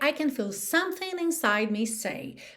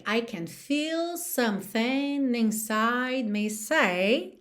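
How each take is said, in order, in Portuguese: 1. Ela é dita com o ritmo normal de conversa. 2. Ela é dita seguindo o ritmo da música. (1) "normalmente eu falaria" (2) "no ritmo da música"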